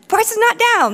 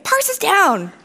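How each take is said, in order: First: Higher-pitched mock indignation, NOT punched; indignant rebuttal. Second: Higher-pitched mock alarm; complaining user. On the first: Engineer contradicting a complaining customer, mock-indignant rebuttal. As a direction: argue back with emphatic denial. Acting out the argument back. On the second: User writing in every day to complain, mock alarm. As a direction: imitate a user reporting an outage.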